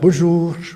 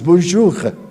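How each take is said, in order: First: The final R is light and soft. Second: The final R is strong and throaty. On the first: This is how other French speakers say it. "E os demais" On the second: This is how Parisians say it. "o francês de Paris diz bonjour, como se fosse rá"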